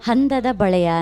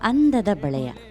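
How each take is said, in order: First: The first word begins with an h sound. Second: The first word begins directly with a vowel. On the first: The speaker calls it wrong. "ಹಂದದ ಬಳೆಯ ಅಂದ್ರಿ" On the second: The speaker calls it right. "ಅಂದದ ಬಳೆಯ ಅಲ್ವಾ?"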